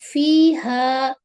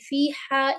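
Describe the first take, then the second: First: The h is a light breathy sound. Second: The h is a harsh sound from the throat. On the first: The speaker calls it right. "सीने वाली हा है" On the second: The speaker calls it wrong. "इस तरह से नहीं करेंगे हम"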